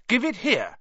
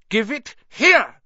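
First: High call, not quite a yell; called demand. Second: High, loud, drawn-out yell; yelled demand. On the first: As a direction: call out the order, only mildly raised. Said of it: "Harry called". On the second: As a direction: yell the order slowly and forcefully. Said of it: "Harry yelled". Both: A narrator's reading.

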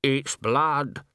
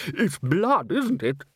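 First: Lightly voiced workman stating a discovery; carpenter. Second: Higher, uneasy questioning take; lightly voiced musician seeking confirmation. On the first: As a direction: state it slowly, with a falling end. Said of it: "said the carpenter". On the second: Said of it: "said a musician". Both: A narrator's reading.

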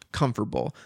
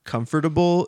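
First: "comfortable" squeezed to "comf'table", Southern style; southern dialect spelling. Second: Said in the usual way. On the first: Shown as a demonstration. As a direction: say "comfortable" as a folksy "cumf'table". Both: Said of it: "comfortable is spelled comfortable".

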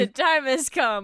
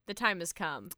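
First: Louder, projected news-anchor announcement; emphatic newsreader delivery; news reporter. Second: Low, soft, solemn news-anchor announcement; understated newsreader gravity; news reporter. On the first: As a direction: proclaim it like a reporter opening the broadcast. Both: Pretend. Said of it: "talking like a news reporter".

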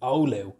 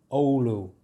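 First: Oulu with a Dublin lilt, oo-LOO-oo. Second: Oulu said the Finnish way, OH-loo; careful local Oulu; proper Finnish Oulu. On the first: Showing viewers his Dublin way of saying the town, inner city Dublin pronunciation. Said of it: "Proper inner city dub there coming out". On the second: Explaining to viewers how locals say the town, careful Finnish pronunciation. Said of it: "That's the real way of saying Oulu". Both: Shown as a demonstration.

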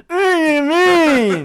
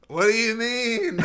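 First: High slow crying wail; wailing ghost. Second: High slow spooky ghost. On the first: Shown as a demonstration. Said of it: "maybe do something like". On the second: Pretend. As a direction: moan it like a ghost. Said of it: "That's my ghost voice".

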